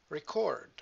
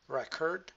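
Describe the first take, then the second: First: "record" stressed re-CORD; weight on the end of "record", falling; verb-style "record" with end stress; stress on second syllable. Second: "Record" stressed REK-erd; weight on the start of "Record", weak ending; noun-style "Record" with front stress; stress on first syllable. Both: Shown as a demonstration. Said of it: "different position of the stress".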